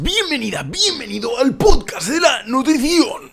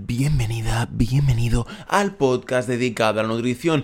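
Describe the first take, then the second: First: It is said in an unusual put-on voice. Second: It is said in his normal speaking voice.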